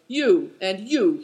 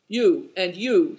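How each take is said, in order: First: Slow, heavy stress on each you; you and you, each pointed and slow; as before. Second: Slow, heavy stress on each you; you, and you, each pointed and slow; abrupt address. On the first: Old man tapping each guest's chest, slow and weighty. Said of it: "he said as before". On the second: Old man abruptly singling out two guests, slow and weighty. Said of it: "said Tolas suddenly". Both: A narrator's reading.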